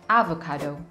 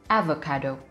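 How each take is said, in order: No difference in how they are said.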